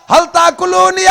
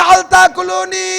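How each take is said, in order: No difference in how they are said.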